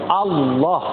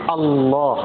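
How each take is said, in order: The two takes are said the same way.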